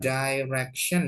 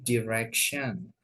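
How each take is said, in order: First: The first vowel sounds like "eye". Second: The first vowel is a short "i". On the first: The speaker calls it wrong. "bukan direction" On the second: The speaker calls it right. "tapi direction"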